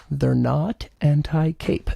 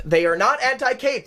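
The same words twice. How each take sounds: First: Slow, lower confiding take on anti-cape; a mock secret told low and slow. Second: Higher, firm "not anti-cape" with a falling end; firm restatement; emphatic. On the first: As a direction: lean in and let anti-cape hang. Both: Shown as a demonstration. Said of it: "let me tell you a secret".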